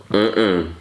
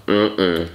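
Both takes have the same delivery.

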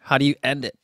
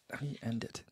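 First: Said in the usual way. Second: Much softer echo of the question; muttered to herself. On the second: Real, not acted. Musing aloud, repeating the question far quieter. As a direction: repeat it under your breath.

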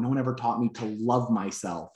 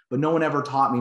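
First: Softer, tearful retelling; a hint of his tears; retold crying. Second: Said in the usual way. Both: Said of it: "And then he starts crying".

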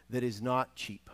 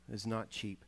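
First: Said in the usual way. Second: Softer, drawn-out echo of not cheap; softer repeated emphasis. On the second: Real, not acted. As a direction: let "not cheap" sink in quietly. Repeats the point for weight.

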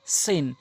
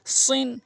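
First: সিন with wide mouth and thin s; light, clean s in সিন; spread light s. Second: সিন with round mouth and dark s; heavy s in সিন, pitched up. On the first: Teacher contrasts two letters, light spread সিন. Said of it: "সিনটি মুখ ওসার হবে". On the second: Teacher contrasts two letters, heavy round সিন. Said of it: "সৎটি মুখ গোলাকার হবে". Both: Shown as a demonstration.

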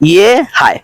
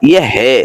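First: ইয়ে হায় with a clear open "hai", not "he"; Urdu "hai" pronunciation. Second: ইয়ে হে with a short plain "he", not "hai"; Urdu "he" pronunciation. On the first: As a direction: say ইয়ে হায় ending in the full "hai" diphthong. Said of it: "এই উচ্চারণটা হয়". (ইয়ে হায় স্পষ্ট "হায়" উচ্চারণে) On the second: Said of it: "উচ্চারণ হবে এরকম ইয়ে হে". (ইয়ে হে ছোট "হে" উচ্চারণে) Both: Shown as a demonstration.

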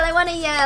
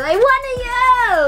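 First: Said in the usual way. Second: Excited yell. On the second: Real, not acted. Fan letting out her excitement at the photo, excited yell. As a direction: finally shriek it out.

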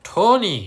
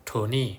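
First: "Tony" called out higher and louder, falling; teacher springs the example name on the pupils; emphatic example. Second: Said in the usual way. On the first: Shown as a demonstration. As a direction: announce the name "Tony" brightly to the class. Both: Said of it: "ยกตัวอย่างเช่น".

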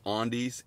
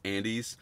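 First: "Andes" with a broad open AH start, AHN-deez; mispronounced Andes. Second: "Andes" with the short A of "and", AN-deez; corrected Andes. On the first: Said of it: "when I said Andes". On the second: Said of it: "I believe it's Andes". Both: Real, not acted.

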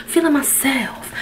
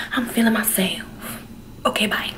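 First: Said in the usual way. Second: Soft playful whisper. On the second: Real, not acted. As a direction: whisper it to yourself. Whispered repeat of own line.

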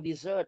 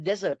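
First: "dessert" as di-ZERT, weight on the end; stress on second syllable. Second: "desert" as DEZ-ert, weight up front; stress on first syllable. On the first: Teacher contrasts sweets with sand, stressing the end of "dessert". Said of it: "ของหวานออกเสียง dessert ตัวที่สอง". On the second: Teacher contrasts sand with sweets, stressing the start of "desert". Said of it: "แต่ทะเลทรายคือ desert ตัวแรก". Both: Shown as a demonstration.

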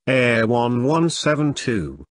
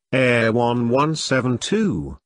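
No difference in how they are said.

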